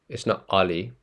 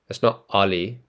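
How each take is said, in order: No difference in how they are said.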